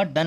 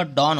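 First: "डन" with a short uh, like done; short vowel "dun". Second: "डॉन" with an open o, as in don; open vowel "don". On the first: Teacher rejecting a wrong ending, "डन" said as dun. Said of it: "डन नहीं होगा". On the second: Teacher giving the right ending, "डॉन" said as dawn. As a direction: say "डॉन" with a longer aw sound. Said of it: "डॉन होगा". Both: Shown as a demonstration.

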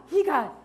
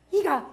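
Both takes have the same delivery.

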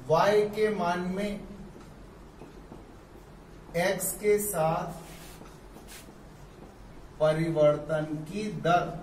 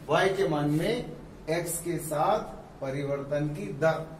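First: Slow, with long pauses between phrases; teacher reading the rate of change slowly; slow careful reading. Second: Said in the usual way. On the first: Shown as a demonstration. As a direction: dictate it phrase by phrase. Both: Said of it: "ऐसे भी पढ़ते हैं".

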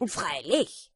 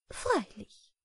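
First: A proud beetle's matter-of-fact reply; lightly voiced beetle. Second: High, eager butterfly agreement; a little butterfly admiring; lightly voiced high butterfly. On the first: Beetle's curt answer. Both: A narrator's reading.

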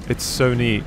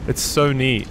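Both takes have the same delivery.

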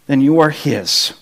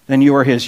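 First: Slow and low, leaning on "are"; stress on are. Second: Low, the weight on "you"; stress on you. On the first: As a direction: settle "are" gently and firmly, low and unhurried. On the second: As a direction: point the listener home by hitting "you". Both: Acted. Repeats assurance to doubting listeners.

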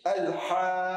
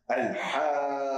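First: Al-Haqqa with the vowel held six counts and a hard final H; drawn-out recitation. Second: Al-Haqqa slowly, long vowel, breathy H at the end; slow recited word. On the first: Teacher showing the six-count stretch on Al-Haqqa. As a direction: draw the word long, end hard on the H. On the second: Teacher reciting Al-Haqqa slowly for attention. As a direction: stretch Al-Haqqa and let air out on the H. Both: Shown as a demonstration. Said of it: "ich ziehe das Wort richtig lang".

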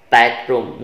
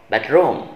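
First: BED stressed in Bedroom, room falling away; stress on the first word. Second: Bedroom with ROOM stressed; wrong stress on second word. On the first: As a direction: hit Bed in Bedroom, let room drop. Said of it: "is on the first word". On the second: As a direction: lean on room in bedroom, letting it fall. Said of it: "not bedroom". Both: Shown as a demonstration.

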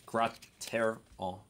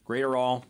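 First: Graterol sounded out slowly, grah-teh-roll; corrected pronunciation. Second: Graterol starting like "great"; mistaken pronunciation. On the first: Shown as a demonstration. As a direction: break Graterol into slow syllables, opening with "grot". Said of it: "it's Grot". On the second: Real, not acted. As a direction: say Graterol as GRAY-ter-all, loud first guess. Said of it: "So no great".

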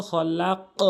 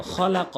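First: খলাক with a long la and bouncing rounded q; upward qalqala on stopping. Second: খলাক with a short, open final qa; unstopped reading. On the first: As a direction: echo the final q of খলাক upward. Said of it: "উপর দিকে sound হবে". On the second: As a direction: read খলাক through, no echo or pause. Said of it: "ওয়াকফ করলে কিন্তু". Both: Shown as a demonstration.

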